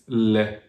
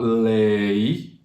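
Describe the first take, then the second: First: LE said as a steady LEH, no glide; French "lait" ending in open EH; pure French vowel. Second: LAIT drawn out as LAY-ee; anglicized "lait", sliding up to EE; English gliding vowel. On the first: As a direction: say "le" like "let" without the T. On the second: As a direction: stretch "lait" into a diphthong. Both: Shown as a demonstration. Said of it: "only one sound for the vowel".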